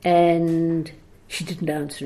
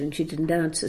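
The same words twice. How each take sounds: First: Said in the usual way. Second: "answer" said softer, trailing away; fading repeat. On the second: Shown as a demonstration. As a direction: let the repeat die off.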